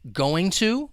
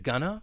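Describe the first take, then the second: First: Both words are said fully and separately. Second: The words blend into one short reduced word.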